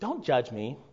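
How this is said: It is said in a light, playful tone. The speaker is joking around. "in a playful tone"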